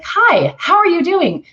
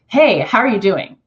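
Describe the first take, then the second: First: High, loud, chirpy hi; high perky greeting. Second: Easy mid-low hey; lower relaxed greeting. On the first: Demoing her high greeting, perky and loud. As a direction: pitch the hello way up and perky. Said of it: "adding on top of it that". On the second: Demoing the low-voice greeting, relaxed. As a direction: drop it down and keep it chill. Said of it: "is very different than". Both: Shown as a demonstration.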